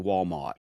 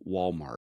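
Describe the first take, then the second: First: It is said in an old-school Virginia accent. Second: It is said in a general Southern accent. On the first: The speaker calls it right. "they say Walmart" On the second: The speaker calls it wrong. "a true old school Virginia accent doesn't say Walmart"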